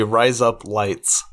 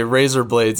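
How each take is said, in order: First: Put-on Australian vowels; Australian accent. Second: Said in the usual way. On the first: Shown as a demonstration. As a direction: RISE UP LIGHTS run together to sound like Aussie "razor blades". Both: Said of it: "If you wanna say razor blades".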